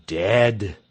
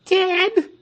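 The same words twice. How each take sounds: First: "Dead." low, firm, falling; "Dead." said grave and final; flat confirmation. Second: "Dead?" very high, loud, rising in disbelief; "Dead?" as if you can't believe it; shocked question. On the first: Pastor confirming to the crowd "Dead." low and final. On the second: Crowd asking the pastor "Dead?" in high disbelief. Crowd hears the Emperor died. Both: Acted.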